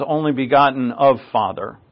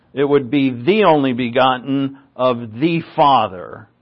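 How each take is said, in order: First: Said in the usual way. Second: "the" said clearly and weighted before Father; stress on THE. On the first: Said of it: "it actually says". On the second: Shown as a demonstration. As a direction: lean on "the" to show the article. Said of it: "But it actually says only begotten of Father".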